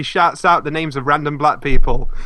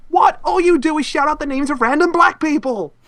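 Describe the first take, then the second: First: Said in the usual way. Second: High, indignant mock protest; acted-out exasperation, high-pitched; exasperated complaint. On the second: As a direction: pitch it high, like a fed-up accusation. Acted complaint in show quote.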